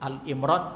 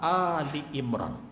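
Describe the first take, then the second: First: The first part is said as short 'Al'. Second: The first part is said as 'Ali', two syllables. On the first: It names the chapter simply after Imran. The speaker calls it wrong. "Disebut Al-Imran salah" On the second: It names the chapter after the family of Imran. The speaker calls it right. "yang tepat surah Ali Imran"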